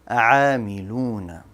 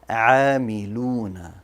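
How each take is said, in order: The two takes are said the same way.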